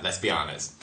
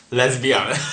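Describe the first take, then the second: First: Low, soft throwaway aside; quiet mutter. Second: Said in the usual way. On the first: Shown as a demonstration. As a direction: mutter it under your breath.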